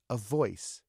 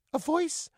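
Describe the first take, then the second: First: Said in the usual way. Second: High-pitched echoing question; puzzled dummy. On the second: Acted. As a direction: echo it as a high puppet query. Dummy echoes Joe, puzzled.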